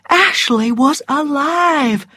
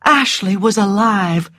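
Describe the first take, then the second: First: Higher, slow, savoured exclamation; rising elation. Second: Restrained joy, letting it sink in. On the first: Narrator voices Scarlett's bursting heart, slow elation. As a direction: let joy swell through every word. Narrated joy, intensified repeat. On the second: Narrator shares Scarlett's relief at the news, restrained joy. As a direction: narrate with a touch of happy relief. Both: A narrator's reading.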